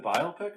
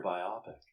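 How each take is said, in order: First: Biopic said BYE-oh-pick, long O; biopic as BIO-pic. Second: Biopic said bye-OP-ick, rhyming with myopic. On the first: Host asks co-host which is right, biopic as BYE-oh-pick. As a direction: stress the first syllable of biopic, like bio plus pick. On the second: Host offers co-host the alternative, biopic as bye-OP-ick. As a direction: stress the middle of biopic, short O. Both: Shown as a demonstration. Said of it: "Is it biopic or biopic?".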